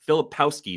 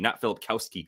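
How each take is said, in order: First: There is no k sound before the ending. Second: There is a k sound before the ending. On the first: The speaker calls it right. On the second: The speaker calls it wrong.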